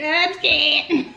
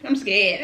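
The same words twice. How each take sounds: First: Nervous laugh through the words; half-laughing scared. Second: Said in the usual way. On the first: Real, not acted.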